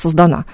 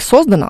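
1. Ударение на последнем слоге. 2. Ударение на первом слоге. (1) "а создана" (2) "Не создана"

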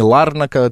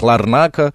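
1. Ударение на первом слоге. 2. Ударение на одном из последующих слогов. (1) "совершенно не Ларнака" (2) "сами киприоты называют Ларнака"

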